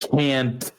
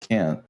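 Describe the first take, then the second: First: The final T is strongly and clearly pronounced. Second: The final T is weak and hard to hear. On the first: The speaker calls it right. "I'll really emphasize the T then" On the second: The speaker calls it wrong. "pronounce it uh, more clearly next time"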